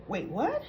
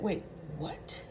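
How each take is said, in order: First: Said in the usual way. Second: Breathless whispered wait, what; Carly whispering in disbelief; whispered shock. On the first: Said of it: "Spinelli went like". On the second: Retold or imitated. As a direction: gasp it out in a stunned whisper. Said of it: "Carly said".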